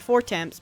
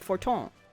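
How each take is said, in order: First: The name ends with a clear 'temps' sound. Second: The name ends with a soft 'ton' sound. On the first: The speaker calls it wrong. "not four temps" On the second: The speaker calls it right. "but Forton"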